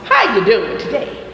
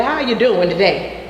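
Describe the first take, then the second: First: Mom's greeting. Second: Said in the usual way. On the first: Retold or imitated. Teacher greets class like mom used to, lightly imitated greeting. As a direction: lightly echo how your mom says hello. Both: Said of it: "Like my mom used to say".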